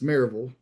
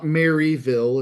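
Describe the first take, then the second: First: It is said in the local Southern way. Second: It is said in a Midwestern, outsider way.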